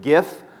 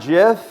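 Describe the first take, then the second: First: It begins with a hard G sound. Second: It begins with a soft J-like sound. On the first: "I am Team Hard G. I pronounce it GIF" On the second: "not GIF"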